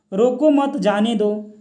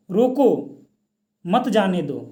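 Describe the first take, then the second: First: "रोको मत जाने दो" run together without a comma pause; slow, joined-up "रोको मत जाने दो", no break inside. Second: "रोको", a clear pause, then "मत जाने दो"; "रोको" on its own, pause, "मत जाने दो" falling away; comma pause after रोको. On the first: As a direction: say "रोको मत जाने दो" as one unbroken phrase. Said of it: "तो अर्थ का अनर्थ हो जाएगा". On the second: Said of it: "लेकिन बीच में कॉमा लग गया". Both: Shown as a demonstration.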